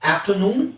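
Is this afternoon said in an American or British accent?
American. It is said in an American accent. "ಅದೇ ತರ ಇಲ್ಲೂ ಅಷ್ಟೇ"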